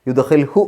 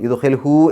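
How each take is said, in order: First: The final vowel is kept short. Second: The final vowel is drawn out long. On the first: The speaker calls it right. "ഇതിനെ നീട്ടൂല, യുദ്ഹിൽഹു എന്നേ പറയൂ" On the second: The speaker calls it wrong. "എന്ന് നീട്ടി പറയൂല"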